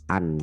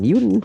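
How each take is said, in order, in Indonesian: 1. Suku kata langsung diawali dengan vokal. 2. Suku kata diawali dengan bunyi geluncur 'y'. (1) "un ya" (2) "bukan yun"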